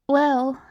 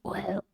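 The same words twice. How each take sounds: First: It is said in a plain voice. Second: It is said in a throaty voice.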